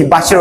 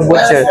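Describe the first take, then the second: First: "butcher" said as BAT-cher; butcher with open vowel. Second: "butcher" said as BOOT-cher; butcher with rounded vowel. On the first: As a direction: say "butcher" with an open "ah" in the first syllable. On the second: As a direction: say "butcher" with a rounded "oo" in the first syllable. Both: Shown as a demonstration. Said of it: "depende sa accent".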